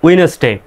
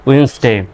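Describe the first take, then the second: First: It has three syllables with no D sound. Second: It has two syllables with no D sound. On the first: "সঠিক উচ্চারণ হবে উইনেসডে" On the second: "আরও যদি সঠিকভাবে করেন"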